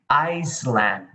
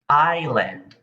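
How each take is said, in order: First: An S sound is pronounced in the middle. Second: No S sound is pronounced in the middle. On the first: The speaker calls it wrong. "you say Iceland, but that is wrong" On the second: The speaker calls it right. "The correct pronunciation for this is island. ... The S is silent"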